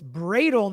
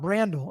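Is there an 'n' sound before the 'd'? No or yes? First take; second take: no; yes. First: The name has no 'n' before the 'd'. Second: The name has an 'n' before the 'd'. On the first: The speaker calls it right. "it's Bradle" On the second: The speaker calls it wrong. "not Brandle"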